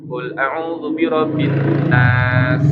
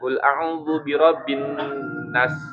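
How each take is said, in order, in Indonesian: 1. Desis s di akhir diucapkan dengan jelas. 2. Desis s di akhir dipercepat atau dihilangkan. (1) "gitu ya ... harus ada suara dhofirnya" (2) "jangan cepet di atau dihilangkan ... enggak"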